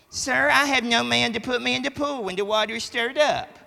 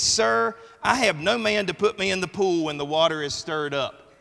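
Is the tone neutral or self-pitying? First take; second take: self-pitying; neutral. First: It is read in a whiny, self-pitying tone. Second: It is read in a plain, neutral tone.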